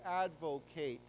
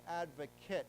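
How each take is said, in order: First: The last syllable has a long a sound. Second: The last syllable has a short reduced vowel. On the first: It is used as a verb meaning to promote a cause. "Then the a becomes a long a" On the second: It is used as a noun meaning a person.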